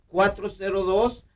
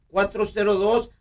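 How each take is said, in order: The two takes are said the same way.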